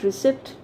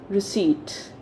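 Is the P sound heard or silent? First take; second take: heard; silent. First: The P sound is pronounced. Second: The P sound is silent. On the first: The speaker calls it wrong. "But is it receipt? No" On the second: The speaker calls it right. "It's receipt. ... the letter P is silent here"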